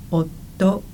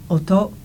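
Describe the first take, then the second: First: "oto" in three beats with a held t; held consonant. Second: "Oto" in two beats with a short t. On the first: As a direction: stop on the t of "oto" for an extra beat. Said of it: "the T is held for an additional beat". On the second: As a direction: say "Oto" with no hold on the t. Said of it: "is two syllables or two beats". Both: Shown as a demonstration.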